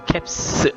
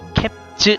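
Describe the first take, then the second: First: The word ends with a hissing s sound. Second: The word ends with a buzzing z sound. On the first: The speaker calls it right. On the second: The speaker calls it wrong. "캡즈 아니고요"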